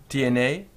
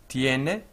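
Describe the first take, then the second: The two takes are said the same way.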